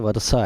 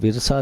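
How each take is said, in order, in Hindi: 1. पहला स्वर 'a' की आवाज़ है। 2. पहला स्वर 'i' की आवाज़ है। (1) "ज़बर के साथ पढ़ा जाता है" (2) "ये विरसा नहीं है"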